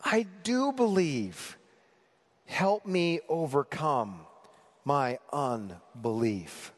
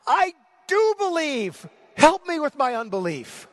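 First: Slow, weighted plea, sinking to a low finish; desperate hope. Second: Crying out high and loud, words stretched; a father's anguished plea, full of pathos; desperate cry. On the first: Father's prayer to Jesus, restrained desperation and hope. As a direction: pray it slowly, each phrase set apart. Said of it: "combination of desperation and hope". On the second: Father crying out to Jesus for help, desperate. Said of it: "There's desperation in his voice". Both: Acted.

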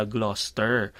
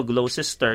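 First: 'Gloucester' as GLOS-ter, low; actual pronunciation. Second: 'Gloucester' as glo-SES-ter, low; reading as written. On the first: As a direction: say 'Gloucester' in two syllables. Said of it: "yung pala". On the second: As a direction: read 'Gloucester' in three syllables. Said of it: "pag binasa mo". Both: Shown as a demonstration.

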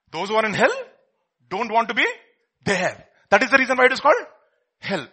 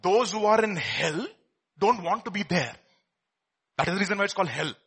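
First: Louder, higher, each phrase hung before "there" and "hell"; emphatic repetition. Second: Said in the usual way. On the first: Real, not acted. Preacher drives the point home to listeners, emphatic and halting. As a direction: pause before "hell" and drop it in as the punch word.

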